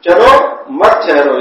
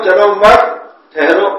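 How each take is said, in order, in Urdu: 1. لفظ 'chalo' کے بعد ٹھہراؤ ہے۔ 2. لفظ 'mat' کے بعد ٹھہراؤ ہے۔ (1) "چلو کے بعد وقت کر دیا ہم نے" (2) "اگر مت کے بعد ہم نے وقت کر لیا"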